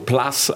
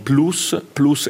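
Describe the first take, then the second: First: The vowel sounds like English 'plus'. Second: The vowel is a pure Italian 'u'. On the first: The speaker calls it wrong. "spesso viene pronunciato all'inglese" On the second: The speaker calls it right.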